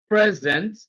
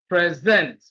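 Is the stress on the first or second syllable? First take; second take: first; second. First: The stress is on the first syllable. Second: The stress is on the second syllable. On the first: It is used as a noun. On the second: It is used as a verb.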